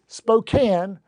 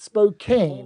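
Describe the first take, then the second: First: The last syllable sounds like 'can'. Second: The last syllable sounds like 'cane'. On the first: The speaker calls it right. "It is Spokane" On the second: The speaker calls it wrong. "not Spokane"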